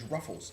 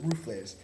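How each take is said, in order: First: It is said as English "ruffles". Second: It is said with Spanish sounds, "roo-flays". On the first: "known as ruffles in the United States" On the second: "that's how they pronounce them"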